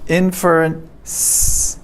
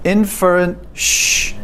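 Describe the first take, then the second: First: The word ends with an s sound. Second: The word ends with a sh sound. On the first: "This is the one we want" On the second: "so if I say inferent, shh"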